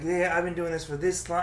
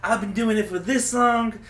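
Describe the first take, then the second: First: Lightly imitated self-important comic; mild mocking brag; mock boasting. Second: High, loud, drawn-out mocking brag; hammed-up self-important comic; exaggerated mock boasting. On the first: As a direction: quote a show-off, slightly raised pitch. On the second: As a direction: stretch it out, mocking a show-off. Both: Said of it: "I hate when they said".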